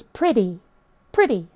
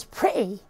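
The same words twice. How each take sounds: First: "pretty" as priddy. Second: "pretty" as pre'y, no T; glottal T. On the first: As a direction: say "pretty" with a D in the middle. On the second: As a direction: break "pretty" with a glottal stop for the T. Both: Shown as a demonstration. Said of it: "the T would sort of get pronounced as a D".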